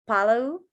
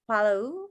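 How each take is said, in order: Both takes have the same delivery.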